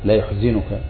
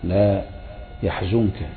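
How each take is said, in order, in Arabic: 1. يبدأ الفعل بـ yu-، وبعد الزاي كسرة. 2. يبدأ الفعل بـ ya-، وبعد الزاي ضمة. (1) "قرأ نافع بضم الياء وكسر الزاي" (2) "بفتح الياء وضم الزاي"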